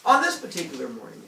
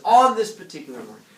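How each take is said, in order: First: Said in the usual way. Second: "On this particular morning" called out louder; read out loud as a marker. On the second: Shown as a demonstration. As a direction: point out the line loudly, high on "On". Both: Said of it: "where it says".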